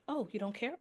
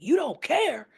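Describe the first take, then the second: First: It is said in a calm tone. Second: It is said in an aggressive tone.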